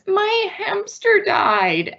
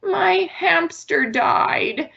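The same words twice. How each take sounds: First: Put-on high, slow, tearful little kid; high childlike voice, slow and grieving; sad child voice. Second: Put-on high, slow, sad little kid; lightly voiced sad child. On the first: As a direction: sound like a small child who just lost a pet. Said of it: "So the child comes in and says". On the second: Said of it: "imagine your child comes to you and says".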